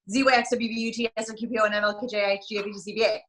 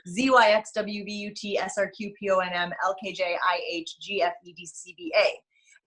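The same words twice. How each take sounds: First: The letters are said very fast. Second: The letters are said at normal speed.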